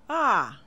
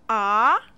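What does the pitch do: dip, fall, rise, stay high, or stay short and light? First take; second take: fall; rise. First: The pitch falls from high to low. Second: The pitch rises from middle to high. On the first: "The fourth tone falls from high to low like this" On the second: "The second tone begins and rises from middle to high"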